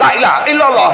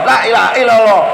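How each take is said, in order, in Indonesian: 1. Vokal pertama dibaca pendek. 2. Vokal pertama dibaca pendek.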